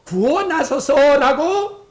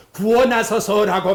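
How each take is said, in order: First: 구원하소서 drawn out slowly and louder; slow stressed plea. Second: Said in the usual way. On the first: Shown as a demonstration. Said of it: "구체적으로". (구원하소서를 천천히 힘주어) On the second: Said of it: "그 다음 뭐예요".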